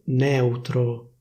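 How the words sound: The E vowel is open. This is the standard pronunciation. "la pronuncia ufficiale prevede una E aperta"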